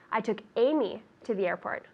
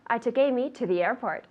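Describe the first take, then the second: First: The word Amy carries the main stress. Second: The word airport carries the main stress. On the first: It answers whom was taken. "Who did you take to the airport?" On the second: It answers where Amy was taken. "Where did you take Amy?"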